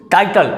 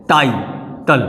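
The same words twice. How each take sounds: First: Said in the usual way. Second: टाइटल said as टाई, pause, टल; split into syllables. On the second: Shown as a demonstration. Teacher proving two syllables, word split by a pause. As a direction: break टाइटल in two, low and separate. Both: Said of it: "दो syllable".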